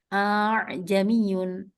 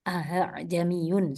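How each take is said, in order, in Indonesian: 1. Hamzah kedua dilunakkan dengan bunyi luncur yang bergetar. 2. Hamzah kedua diganti dengan bunyi h. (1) "berarti kalau menggelombangkan seperti ini" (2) "kalau tasil berarti memudahkan membaca diganti ha"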